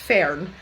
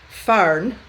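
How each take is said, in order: First: The word is said in a Scottish accent. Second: The word is said in a Northern English accent. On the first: "the way I pronounce Fern" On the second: "he says Fern"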